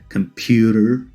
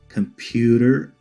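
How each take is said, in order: First: It is said in an American accent. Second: The same.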